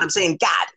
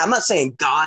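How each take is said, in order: First: God is said in a Pittsburgh accent, like Gad. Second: God is said in a standard accent.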